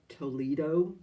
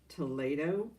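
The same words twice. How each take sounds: First: It is said as English spelling suggests. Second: It is said with a Spanish-style pronunciation. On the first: The speaker calls it wrong. "It's spelled like Toledo" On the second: The speaker calls it right. "but it's pronounced Toledo"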